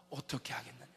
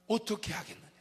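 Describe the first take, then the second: First: Low, soft, hushed asking; a hushed divine question. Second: Said in the usual way. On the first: Acted. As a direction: ask it quietly, almost to yourself. God's question quoted, hushed.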